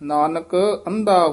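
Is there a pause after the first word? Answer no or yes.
yes. There is a pause between the two words. The speaker calls it right. "ਇੱਥੇ ਵਿਸਰਾਮ ਲਾਉਣਾ ਹੈ ਨਾਨਕ, ਇੱਥੇ ਯਮਕ ਲਾ ਦੇਣੀ ਹੈ"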